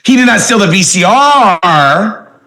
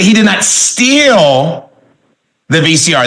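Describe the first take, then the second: First: The stress falls on the word VCR. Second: The stress falls on the word steal. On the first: He stole something else instead. "that means it was the television he stole" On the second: He only borrowed it. "that means he just borrowed it"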